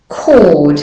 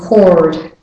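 First: The word is said without an R sound. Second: The word is said with an R sound.

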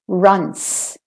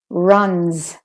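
First: The final sound is a hissing unvoiced S. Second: The final sound is a buzzing voiced Z. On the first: The speaker calls it wrong. "it's not an S because I'm not saying runs" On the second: The speaker calls it right. "I still put a bit of voice into the z after the n"

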